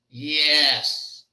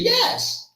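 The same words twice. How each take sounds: First: It sounds like a reluctant, refusing yes. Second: It sounds like a genuine, agreeing yes. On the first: The answer is really no. "when the yes means no, it sounds like this" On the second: The answer is really yes. "that means yes"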